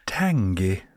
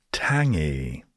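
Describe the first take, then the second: First: "Tangy" whispered, breathy and drawn out. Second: Said in the usual way. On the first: Shown as a demonstration. Vlogger savours the next word for listeners, whispering "Tangy". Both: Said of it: "Next we have".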